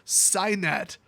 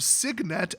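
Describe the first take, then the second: First: The first syllable does not sound like 'sig'. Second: The first syllable sounds like 'sig' in signature. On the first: The speaker calls it wrong. "purposely mispronounce it as Signet" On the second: The speaker calls it right. "as in signature"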